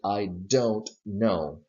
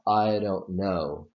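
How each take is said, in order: First: Don't is stressed and its D is clear. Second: Don't is unstressed and its D is flapped.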